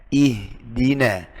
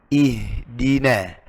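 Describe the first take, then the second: No difference in how they are said.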